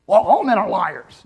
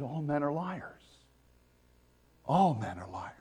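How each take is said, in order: First: Put-on louder bitter snap of a jilted girl; mock the angry dumped girlfriend; dumped girl's retort. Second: God's solemn statement. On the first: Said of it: "a girl who got dumped and got angry". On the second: Retold or imitated. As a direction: state it calmly and gravely as God. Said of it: "He said".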